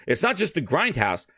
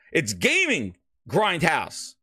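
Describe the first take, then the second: First: Said in the usual way. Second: "Gaming" slow and leaned on; stress on Gaming. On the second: Shown as a demonstration. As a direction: hit "Gaming", draw out "Gaming Grindhouse". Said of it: "the gaming in front of Grindhouse".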